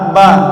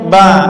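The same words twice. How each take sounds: The two takes are said the same way.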